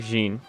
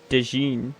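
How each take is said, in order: First: It starts directly with a 'j' sound. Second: It starts with a separate 'de' syllable. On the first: The speaker calls it right. "Jean, not Dejin. My bad" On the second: The speaker calls it wrong. "is that how you say it?"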